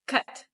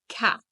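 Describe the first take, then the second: First: The vowel is said with the mouth barely open. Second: It has a standard English open vowel. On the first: "For some other languages, it could be cut. Because the mouth doesn't open" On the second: "the word cat"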